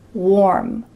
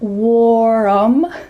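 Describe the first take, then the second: First: The word is said with one syllable. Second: The word is said with two syllables. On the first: The speaker calls it right. "the word warm has just one syllable" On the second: The speaker calls it wrong. "not warm"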